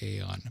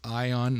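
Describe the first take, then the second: First: The name starts with an 'ay' sound. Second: The name starts with an 'eye' sound. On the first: The speaker calls it wrong. "not Aeon" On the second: The speaker calls it right. "I should probably start pronouncing it properly. It's Ion"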